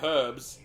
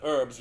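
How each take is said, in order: First: The h at the start is pronounced. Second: The h at the start is silent. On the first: The speaker calls it right. "In England, we say herbs ... because there's a fucking H in front of it" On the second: The speaker calls it wrong. "instead of herbs"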